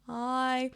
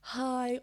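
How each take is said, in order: First: The vowel starts smoothly without any catch. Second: The vowel starts with a breathy h sound. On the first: "or smooth" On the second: "doing aspirate"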